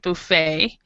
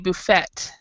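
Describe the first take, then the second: First: The final T sound is silent. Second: The final T sound is clearly pronounced. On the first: "in American English we pronounce it buffet" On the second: "British English, they pronounce pronounce it with the T"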